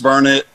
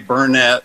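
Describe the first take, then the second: First: The stress is on the first syllable. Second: The stress is on the second syllable. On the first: The speaker calls it right. "Yes, it's Burnett" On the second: The speaker calls it wrong. "Don't ever say Burnett, or people around here will get after you"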